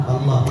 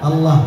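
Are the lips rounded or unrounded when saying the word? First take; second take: unrounded; unrounded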